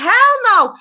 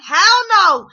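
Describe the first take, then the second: First: High, loud mock Hell no; emphatic refusal. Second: High, louder Hell no of a fired-up viewer; yelling at the TV. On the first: Wife refusing the lawyer, high loud scoffing Hell no. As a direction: snap it back like an outraged wife. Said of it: "She's like". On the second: Retold or imitated. Viewer answering the lawyer through the TV, high loud Hell no. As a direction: shout it at the screen in agreement. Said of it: "through the T V".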